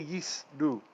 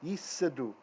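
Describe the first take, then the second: First: The word is said in two syllables. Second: The word is said in three syllables. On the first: The speaker calls it wrong. "I don't say yis du" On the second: The speaker calls it right. "I pronounce it that way"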